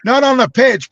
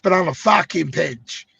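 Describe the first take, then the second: First: Said in the usual way. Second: Put-on a weak, half-hearted Brazilian accent, slow; bad Brazilian accent, drawn out slowly; failed Brazilian accent. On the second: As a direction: try a Brazilian accent and miss. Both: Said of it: "Sorry, I can't do a Brazilian accent".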